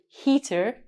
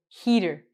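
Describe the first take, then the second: First: The middle consonant is a crisp T sound. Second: The middle consonant is a soft D sound. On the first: The speaker calls it wrong. "we don't say heater" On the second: The speaker calls it right. "we say heater. ... it looks like header"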